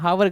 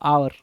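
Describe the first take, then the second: First: The word starts with an audible h sound. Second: The word starts with a vowel, no h. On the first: The speaker calls it wrong. "हावर गलत है" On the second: The speaker calls it right. "आवर बोलते हैं"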